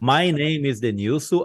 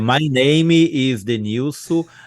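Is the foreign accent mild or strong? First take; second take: mild; strong. First: It has a mild foreign accent. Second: It has a strong, heavy foreign accent. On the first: "Vou falar com a pronúncia ruim aqui" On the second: "Piora um pouquinho mais"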